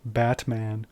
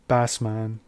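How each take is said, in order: First: A t sound comes before the m. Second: An s sound comes before the m. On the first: "Greeks wouldn't pronounce a word like Batman" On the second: "They would say something like Basman"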